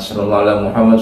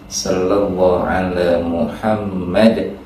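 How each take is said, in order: First: The phrase is recited quickly and hurriedly. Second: The phrase is recited slowly and carefully. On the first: It is rushed just to finish. The speaker calls it wrong. "Jangan ... gitu, jangan. Ya, pelan-pelan aja tartil" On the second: It is savored and reflected on. The speaker calls it right. "Bacanya tartil, jangan buru-buru mengejar cepat selesai"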